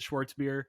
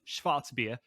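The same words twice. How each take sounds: First: It is said with an Americanized pronunciation. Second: It is said with a German pronunciation. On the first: It is said the casual local way. "we're going to bastardize the word, the pronunciation" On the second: It is said the technically correct way.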